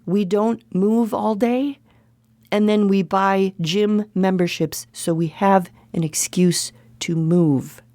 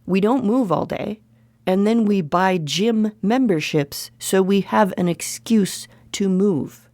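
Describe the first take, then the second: First: Slow it down and drop to a whisper on excuse to move; slow emphatic repeat, fading to a whisper on the last words. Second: Said in the usual way. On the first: Shown as a demonstration. Vlogger repeating her point to viewers, slow and emphatic. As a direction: spell it out slowly, hushed at the end. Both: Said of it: "Let me say it again".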